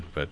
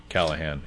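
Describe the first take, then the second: First: Callaghan with a hard g, KAL-uh-gun; their own pronunciation. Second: Callahan with a silent g, KAL-uh-han; corrected pronunciation. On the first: Winery guest giving the family's way of saying it, Callaghan with a hard g. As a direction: sound the g in Callaghan. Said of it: "We say". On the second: Winery guest conceding the correct name, Callahan said with an h. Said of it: "we're told we're definitely incorrect". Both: Shown as a demonstration.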